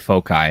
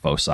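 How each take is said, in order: First: The c is pronounced as a hard k sound. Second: The c is pronounced as a soft s sound. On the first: The speaker calls it right. "Foci sounds cooler" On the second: The speaker calls it wrong. "boo the soft C"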